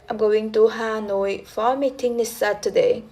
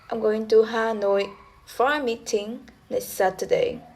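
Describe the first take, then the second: First: It is said as one unbroken tone unit. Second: It is split into three tone units.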